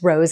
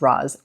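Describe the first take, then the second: First: The name is said with a long vowel. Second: The name is said with a short vowel. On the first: The speaker calls it right. "but it's rose" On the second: The speaker calls it wrong. "I used to pronounce this Roz, my mistake in the past"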